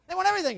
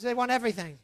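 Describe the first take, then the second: First: Emphatic repeat. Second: Said in the usual way. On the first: Acted. Emphatic repeat, high pitch.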